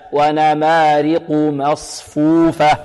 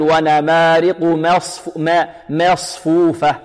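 First: Slow chant, clean open a in مصفوفة; full open fatha. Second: Wrong demo, a of مصفوفة tilted toward e; over-fronted fatha. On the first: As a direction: open the first vowel of مصفوفة fully, without tilting. (تلاوة متأنية بفتحة خالصة في ميم مصفوفة) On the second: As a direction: tilt the first vowel of مصفوفة toward i, as a mistake. (نطق خاطئ بتقليل فتحة ميم مصفوفة) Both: Shown as a demonstration. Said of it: "نحذر من تقليل الفتحة".

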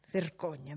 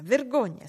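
First: Said in the usual way. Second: Higher, louder shrill reproach; scandalised maid shrieking vergogna, louder; shrieked scolding. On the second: Acted. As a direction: shame her with a shriek. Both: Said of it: "strillò la cameriera".

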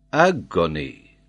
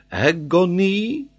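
First: Said in the usual way. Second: AGONY high, loud, rising at the end; emphatic French geographer. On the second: Acted. Geographer offers agony as a reading, emphatic. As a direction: stretch agony out with a French lift. Paganel lists possible words.

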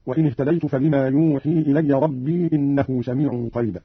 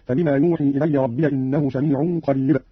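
First: Said in the usual way. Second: ربي as "rabbiya", joined to إنه; open ya when joined. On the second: Shown as a demonstration. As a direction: put a fatha on the ya of ربي and run on. (ربي بفتح الياء وصلا) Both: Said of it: "قرأ قالون بفتح الياء وصلا".

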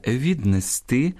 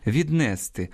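First: "віднести" stressed on a drawn-out "сти"; correct final stress. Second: "віднести" stressed on "не"; wrong stress. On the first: Teacher correcting the error, "віднести" stressed on "сти". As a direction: land slowly on "сти" in "віднести". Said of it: "а грамотно буде". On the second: Teacher quoting a common error, "віднести" stressed on "не". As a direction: misplace the stress onto "не" in "віднести". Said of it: "неправильне наголошування слів". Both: Shown as a demonstration.

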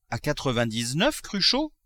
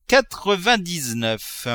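First: A miser who cannot believe the price; incredulous question. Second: Slow, higher, relishing each syllable of quatre-vingt-dix-neuf; savouring. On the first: The miser asks the notary, surprised and rising. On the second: Miser repeating the price to himself, slow relish. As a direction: roll the number round like a sweet. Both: Acted.

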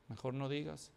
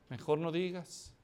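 First: Much softer, low and muttered; quiet aside. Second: Said in the usual way. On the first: Shown as a demonstration. Preacher warning the congregation, hushed advice. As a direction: drop "digas" down under your breath. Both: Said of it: "Ay, mejor no digas".

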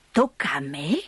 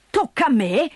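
First: Lower, muttered disbelief; gruff old man. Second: Raised, incredulous echo; indignant. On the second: Old man echoes Dete indignantly, incredulous. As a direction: throw it back at her in outrage. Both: Acted.

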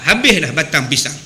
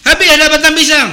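First: Said in the usual way. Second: Higher, louder dismayed outburst; a loud mock cry of dismay; outraged cry. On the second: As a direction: blurt out that the food is gone. Guest finds food gone, outraged.

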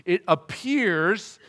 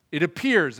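First: "appears" stretched out slowly with a big pitch swell; huge emphasis on APPEARS. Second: Said in the usual way. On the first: Shown as a demonstration. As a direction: lean hard and long on the word "appears". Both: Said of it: "put a huge emphasis on that word".

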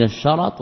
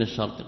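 First: الشرط said "ash-sharat", short a after ر; fatha on the ra. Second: الشرط said "ash-shart", no vowel after ر; sukun on the ra. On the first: Teacher telling two terms apart, الشرط with fatha on ر. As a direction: open up the ر in الشرط with an a. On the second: Teacher giving the contrasting term, الشرط with sukun on ر. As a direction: close ر straight onto ط in الشرط. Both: Shown as a demonstration. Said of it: "ففرق بين الشرط وبين".

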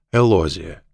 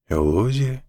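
First: Said in the usual way. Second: «Элозия» asked back, higher with rising pitch; puzzled echo question. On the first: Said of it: "переспросил Мак". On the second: A narrator's reading. Mack checks the woman's name, «Элозия» lifted into a puzzled question. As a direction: repeat «Элозия» as a baffled question. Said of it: "переспросил Мак, совершенно ничего не понимая".

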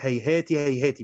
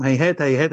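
First: هيهات said with a short i after each final ت; kasra on the ta. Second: Said in the usual way. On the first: Shown as a demonstration. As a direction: end both هيهات on "-ti", as hayhati hayhati. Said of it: "بكسر التاء".

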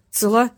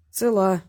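First: «цела» as a question, rising at the end; questioning rise. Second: «Цела» as a plain answer, falling at the end. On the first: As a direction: ask «цела» with a clear upward lift. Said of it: "спросил он". («цела» с вопросительной восходящей интонацией) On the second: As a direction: confirm with «Цела», voice coming down. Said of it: "ответил за неё Васильев". («Цела» как ответ, с понижением тона) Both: A narrator's reading.

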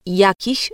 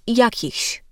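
First: "jakich" without the final ś; clipped ending. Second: "jakichś" with the final ś after ch; full ending. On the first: Diction coach demonstrating a common error, final ś dropped in "jakich". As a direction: end "jakich" on the ch sound. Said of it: "Albo słyszymy jakich zamiast jakichś". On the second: Diction coach showing the careful form, final ś pronounced in "jakichś". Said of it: "jakich zamiast jakichś". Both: Shown as a demonstration.

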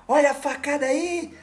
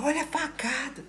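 First: High mock threat, a touch of menace; mock stab threat. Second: Retold shout. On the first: Woman charging at him with her fist, high mock threat. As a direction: squeal it up high like a crazy stranger. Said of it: "ela fala". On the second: Stranger running up to him in the dark, high yelp. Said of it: "começou a gritar".

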